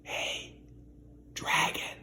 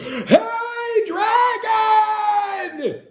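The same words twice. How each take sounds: First: It is whispered very softly. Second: It is shouted very loudly.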